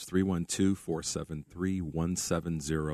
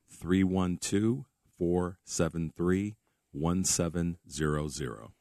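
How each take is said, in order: First: The number is said at a normal pace. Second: The number is said slowly.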